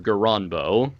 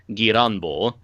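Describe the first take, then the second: First: The R sound in the name is plain. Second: The R sound in the name is rolled. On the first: "it's either Galanbo or Garanbo" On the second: "super Japanese pronunciation, where you just roll the R"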